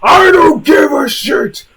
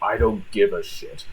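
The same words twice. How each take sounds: First: It is said loudly, in full voice. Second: It is said at a quieter, held-back volume.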